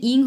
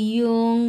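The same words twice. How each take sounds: First: ইং said as flat "ing", higher and quicker; the mistaken ইং; wrong reading. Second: ইয়ং with a clear y-glide, "yong"; the proper ইয়ং; right reading. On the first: Teacher contrasts the wrong sound ইং with yong. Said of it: "এটার উচ্চারণ কিন্তু ইং হবে না". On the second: Teacher gives the correct ইয়ং right after the wrong one. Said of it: "এটার উচ্চারণ হচ্ছে ইয়ং". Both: Shown as a demonstration.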